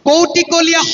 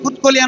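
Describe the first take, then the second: First: The word begins with a longer 'kouti' sound. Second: The word begins with a short 'kut' sound. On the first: The speaker calls it right. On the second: The speaker calls it wrong.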